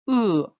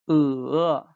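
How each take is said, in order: First: The pitch falls sharply from high to low. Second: The pitch dips low and then rises. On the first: "the fourth tone" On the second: "the third tone... it's a four rise tone"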